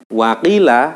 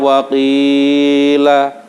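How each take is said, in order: First: The long vowel is cut short, not lengthened. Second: The long vowel is stretched far too long. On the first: "nah itu matnya hilang" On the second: "nah itu terlalu panjang"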